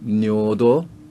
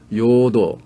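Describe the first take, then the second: First: The word begins with an n sound. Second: The word begins with a y sound. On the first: This is the North Korean pronunciation. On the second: This is the South Korean pronunciation.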